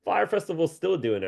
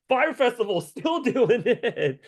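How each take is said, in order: First: Said in the usual way. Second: Laughing disbelief. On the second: Real, not acted. Laughing disbelief at Fire Festival.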